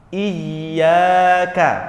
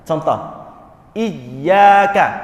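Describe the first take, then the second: First: The first sound is stressed softly and flows on. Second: The first sound is stressed hard and stops abruptly. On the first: The speaker calls it right. "Ada penekanan di situ" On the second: The speaker calls it wrong. "penekanan yang tidak benar"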